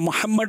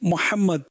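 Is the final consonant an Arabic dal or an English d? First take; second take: English d; Arabic dal. First: The final consonant is an English-style d. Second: The final consonant is an Arabic dal. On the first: The speaker calls it wrong. "ইংরেজি ভাষীরা মোহাম্মদকে মোহাম্মদ বলে, মাআজাল্লাহ মোহাম্মদ নয়" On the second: The speaker calls it right. "দাল"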